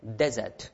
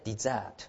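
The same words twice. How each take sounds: First: The stress is on the first syllable. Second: The stress is on the second syllable. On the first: It is the noun meaning a dry sandy region. "アクセントが第一音節にあってdesert" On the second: It is the verb meaning to abandon. "その時は第二音節ですねdesert"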